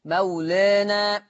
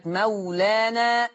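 First: مولانا drawn out, "aa" tilted toward "ee"; slow fronted vowels in مولانا; taqlil. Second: مولانا drawn out with a full open "aa"; long open vowels in مولانا; open fath. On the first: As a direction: say مولانا slowly as "mawlaenae". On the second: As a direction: say مولانا slowly as "mawlaanaa". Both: Shown as a demonstration. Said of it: "أي فيه الفتح والتقليل".

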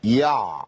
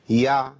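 First: يع with an overdone, forced ain; exaggerated ain. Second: يع with a clipped sukun ain, nothing added; correct ain. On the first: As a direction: overplay the ain in يع. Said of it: "ده صوت طبيعي؟ مش طبيعي". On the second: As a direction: cut يع off clean. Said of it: "ما تزيدش عن كده خالص". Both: Shown as a demonstration.

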